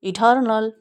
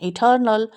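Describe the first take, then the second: The two takes are said the same way.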